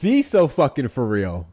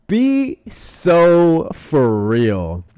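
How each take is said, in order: First: Higher, slowed, incredulous reproach; fed up and slightly raised; exasperated disbelief. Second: Loud, high, very slow disbelief; long exasperated wail of words; drawn-out exasperation. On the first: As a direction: call it out in disbelief. Exasperated reaction to the web page. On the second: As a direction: stretch every word out in outraged disbelief. Repeats it, far more drawn out. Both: Real, not acted.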